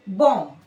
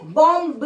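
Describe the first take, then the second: First: बॉम्ब said as bom, the final b silent; correct pronunciation. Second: बॉम्ब with the final b sounded; wrong pronunciation. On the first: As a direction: say बॉम्ब ending on m. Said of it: "ब नहीं सब pronounce करना है". (सही उच्चारण, बी silent) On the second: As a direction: say बॉम्ब ending on a clear b. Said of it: "बॉम्ब नहीं बोलना है". (गलत उच्चारण, अंत में बी बोलकर) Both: Shown as a demonstration.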